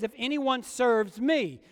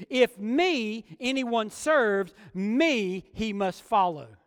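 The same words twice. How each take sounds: First: Said in the usual way. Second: Slow, word by word, with "me" leaned on at the front of each clause; stress on ME. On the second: Shown as a demonstration. Preacher showing the congregation the Greek word order, slow with "me" stressed. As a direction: read it as a stiff literal translation, hitting "me" each time. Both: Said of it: "A literal wooden translation of that passage".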